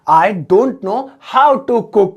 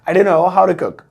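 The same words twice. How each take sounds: First: 'Don't' and 'know' are said as separate words. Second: 'Don't' and 'know' are blended into one word.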